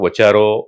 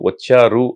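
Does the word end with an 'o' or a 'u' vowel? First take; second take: o; u. First: The word ends with an 'o' vowel. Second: The word ends with a 'u' vowel. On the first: The speaker calls it wrong. "వచ్చారో అనడం" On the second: The speaker calls it right. "వచ్చారు అని"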